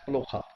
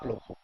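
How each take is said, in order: First: The final vowel sounds like 'ah'. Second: The final vowel sounds like 'o'. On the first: The speaker calls it right. "it is spoken as Plokha" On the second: The speaker calls it wrong. "not Plokho"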